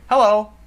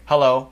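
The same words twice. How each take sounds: First: The greeting is said in a friendly tone. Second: The greeting is said in a serious tone. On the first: "the tone of my voice communicates friendliness" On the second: "that sounds serious"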